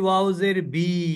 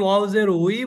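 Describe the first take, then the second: First: The final syllable starts with a b sound. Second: The final syllable starts with a w sound. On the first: The speaker calls it wrong. "কখনো বিও হয় না" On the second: The speaker calls it right. "ওয়াউজের উইটাই হবে"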